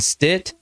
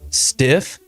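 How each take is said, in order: First: The name ends with a t sound. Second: The name ends with an f sound. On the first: "I've heard ... Stit" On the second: "I've heard ... Stiff"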